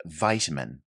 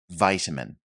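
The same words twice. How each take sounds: First: It is said in an American accent. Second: It is said in an American accent.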